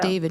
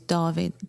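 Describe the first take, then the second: First: The name has an English pronunciation. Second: The name has a Swedish pronunciation. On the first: The speaker calls it wrong. "it's not" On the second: The speaker calls it right.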